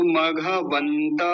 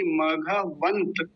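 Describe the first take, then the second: First: मघवंत drawn out as "maghavantaa"; full final vowel. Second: मघवंत ending on a clipped half त, "maghavant"; no vowel after the त in मघवंत; half final consonant. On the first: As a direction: sound a full "a" after the त in मघवंत. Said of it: "त पूरा होता ऐसे". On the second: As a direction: stop मघवंत dead on the t. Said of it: "लेकिन अभी मघवंत ऐसा है". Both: Shown as a demonstration.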